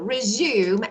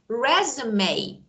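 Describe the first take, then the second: First: It has the verb pronunciation of the word. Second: It has the noun pronunciation of the word. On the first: To begin something again. "resume, as you said, means to begin again" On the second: A written summary of one's qualifications. "But resume, resume is something else that we needed for job"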